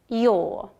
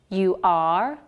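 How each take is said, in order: First: The words are shortened into one quick syllable. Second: Both words are said fully as two syllables.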